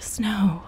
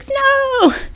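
First: It is said solemnly, like a prayer's amen. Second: It is said excitedly, like a surprise party.

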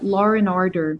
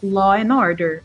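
First: An r sound links law and and. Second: No r sound links law and and.

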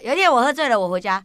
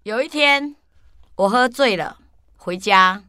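First: It is said quickly, with fewer pauses. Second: It is said slowly, with pauses.

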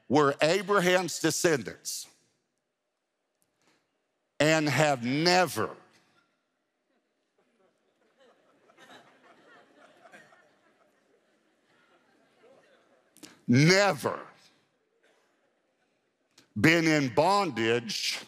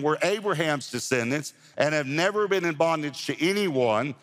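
First: It is read slowly and deliberately. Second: It is read at a normal pace.

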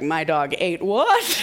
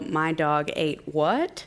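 First: It is screamed in a put-on impression voice. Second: It is said in the speaker's normal voice.

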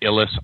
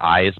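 First: The name begins with a short 'ih' sound. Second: The name begins with an 'eye' sound. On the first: This is the familiar version people will recognize. The speaker calls it wrong. "I pronounce it Illis" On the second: This is the name's actual pronunciation. The speaker calls it right. "I know it's actually pronounced Eyes"

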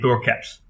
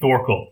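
First: The name ends in an L and T together. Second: The name ends in a plain L sound. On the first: The speaker calls it right. "it's supposed to be" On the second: The speaker calls it wrong. "I keep saying Thorkel"

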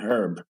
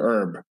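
First: The word begins with an audible h sound. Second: The word begins with no h sound.

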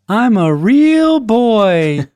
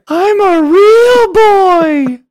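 First: It is said in a lower-pitched voice. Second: It is said in a higher-pitched voice.

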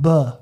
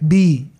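First: It is said as the short sound 'buh'. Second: It is said as the letter name 'bee'. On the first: This is the sound the letter makes in words. "and a pronunciation" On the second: This is what the letter is called. "there's a name"

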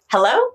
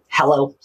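First: It is said smiling and happy. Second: It is said in a harsh, angry voice.

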